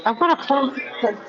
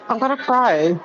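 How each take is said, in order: First: Close to tears. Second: Said in the usual way. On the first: Real, not acted. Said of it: "she's gonna make me cry".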